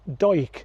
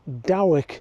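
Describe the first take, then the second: First: It is said to sound like 'Hoyk'. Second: It is said as it is spelled. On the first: The speaker calls it right. "the correct pronunciation is Doig, similar to Hoyk" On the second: The speaker calls it wrong. "reading the name you might be forgiven for saying Dowick"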